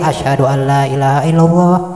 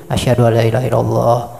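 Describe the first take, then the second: First: The phrase is said loudly and clearly. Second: The phrase is said quietly, under the breath. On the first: It is announced aloud for others. "buat nyaring" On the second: Only the caller hears it. "Pelan-pelan. Yang dia dengar sendiri"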